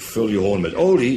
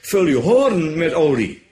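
First: The word olie carries the main stress. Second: The word hoorn carries the main stress. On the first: The point is that oil must go in. The speaker calls it wrong. "Dan weet je, dan moet er olie in. Nee" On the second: The point is the horn rather than the jar. The speaker calls it right. "de klemtoon ligt anders"

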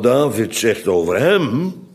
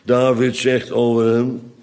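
First: The main stress falls on hem. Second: The main stress is not on hem. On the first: The speaker calls it right. "Want ik had moeten lezen" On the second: The speaker calls it wrong. "nou lees ik hem eigenlijk met de verkeerde klemtoon"

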